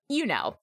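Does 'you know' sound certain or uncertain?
certain. It sounds confident and certain.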